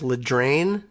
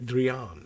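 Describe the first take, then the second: First: The name ends with an 'ain' sound. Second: The name ends with an 'ian' sound. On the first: The speaker calls it wrong. "his name is Ledrain. No" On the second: The speaker calls it right. "the I becomes comes before the A. Drian, I guess, is probably what they mean"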